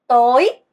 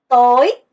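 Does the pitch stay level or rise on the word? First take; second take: rising; rising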